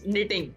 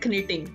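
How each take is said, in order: First: The initial k sound is silent. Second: The initial k sound is pronounced. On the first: The speaker calls it right. "It's निटिंग" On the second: The speaker calls it wrong. "Not कनिटिंग"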